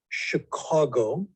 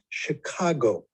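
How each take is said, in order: First: It is said with the local Chicago pronunciation. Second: It is said with an outsider's pronunciation. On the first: The speaker is from Chicago. "pronounced the word of the city we were we come from as Chicago" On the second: The speaker is from somewhere else. "and not Chicago"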